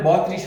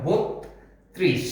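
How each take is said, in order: First: বত্রিশ as "baw-trish", open vowel, single t; wrong open-vowel form. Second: বত্রিশ as slow "bot... trish", o vowel; correct doubled-t form. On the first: Teacher rejecting the spelt reading of বত্রিশ, open baw-trish. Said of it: "তাহলে বত্রিশ হবে না". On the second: Teacher giving the right বত্রিশ, slow bot-trish with o and extra t. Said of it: "অতিরিক্ত একটা ত চলে এসেছে". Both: Shown as a demonstration.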